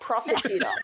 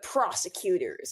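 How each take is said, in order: First: It is said in an Australian accent. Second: It is said in an American accent. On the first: "I'm like prosecutor" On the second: "You're like the prosecutors"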